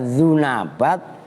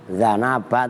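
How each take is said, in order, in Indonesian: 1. Vokal pertama adalah 'u' yang dibulatkan. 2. Vokal pertama adalah 'a' yang terbuka. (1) "ada yang membaca zunabat" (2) "ada yang membaca zana zanabat"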